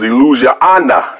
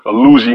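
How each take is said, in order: First: It has an extra vowel syllable at the end. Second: It sounds like the English word illusion. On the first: The speaker calls it right. "but it's Illusiana" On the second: The speaker calls it wrong. "I was pronouncing it Illusion"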